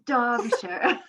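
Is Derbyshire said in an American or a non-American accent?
non-American. It is said in a non-American, fancier-sounding accent. It copies how someone else says the word. The speaker calls it right. "I love how you say Derbyshire"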